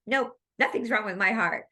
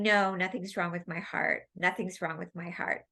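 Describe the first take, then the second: First: Firm, insistent mock denial; a touch louder, flatly refusing it; adamant denial. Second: Said in the usual way. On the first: The lady in class insisting her heart is fine, adamant. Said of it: "she said it pretty adamantly". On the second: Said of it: "she kept saying".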